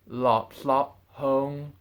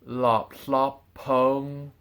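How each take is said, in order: First: The words are said apart. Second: The words run together as one. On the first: The speaker calls it wrong. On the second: The speaker calls it right.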